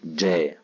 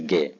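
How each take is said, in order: First: The first consonant is a soft j sound. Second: The first consonant is a hard g sound. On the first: The speaker calls it right. "الجيم دائما في اللغة العربية لغة القرآن معطشة. أقول جا" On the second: The speaker calls it wrong. "ما أقولش جا"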